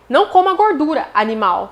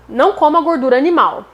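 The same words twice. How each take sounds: First: There is a pause before animal. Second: It is said without a pause before animal.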